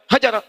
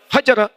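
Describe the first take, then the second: First: The first vowel is short and quick. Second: The first vowel is short and quick.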